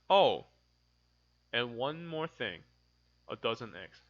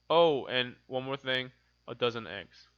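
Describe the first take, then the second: First: It has a short pause at the comma. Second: It is read straight through without a pause. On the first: "because there's a comma, I do a little bit of pause" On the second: "if there was no comma, this is how I would read it"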